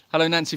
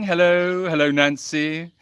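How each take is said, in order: First: Said in the usual way. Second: Hellos held long on level notes; oddly drawn-out greeting. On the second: Real, not acted. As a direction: stretch out each hello oddly. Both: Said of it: "why I said it like that".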